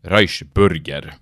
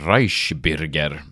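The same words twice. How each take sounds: First: The vowel in 'bürger' sounds like a back 'u'. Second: The vowel in 'bürger' sounds like a front 'y'. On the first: The speaker calls it wrong. "Ikke som TV2-nyhetene sa" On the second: The speaker calls it right. "man vet jo at en tøddel U-en uttales Y"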